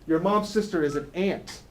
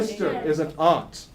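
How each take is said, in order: First: "ant" for aunt, exactly like the insect; short flat A as in cat on "ant"; Philadelphia "ant". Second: Broad AH in "aunt", rhyming with font; standard "aunt". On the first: Teacher showing Philadelphia talk, aunt said as "ant". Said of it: "In Philadelphia". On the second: Teacher showing class the standard word, "aunt" as "ahnt". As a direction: say "aunt" with an open ah vowel, "ahnt". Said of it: "In Philadelphia, your mom's sister is an ant". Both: Shown as a demonstration.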